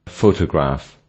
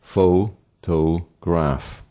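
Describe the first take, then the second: First: Said in the usual way. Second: "Photograph" very slow in three parts; "Photograph" as three separate beats; split into syllables. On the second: Shown as a demonstration. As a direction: pause after each syllable of "Photograph". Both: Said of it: "the word has three syllables".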